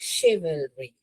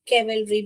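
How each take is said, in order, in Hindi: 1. यह शब्द sh की आवाज़ से शुरू होता है। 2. यह शब्द k की आवाज़ से शुरू होता है। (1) "शिवलरी है" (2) "केवलरी भी नहीं है"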